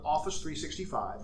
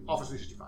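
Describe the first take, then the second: First: It is said at a normal, clear pace. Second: It is said quickly with the sounds slurred.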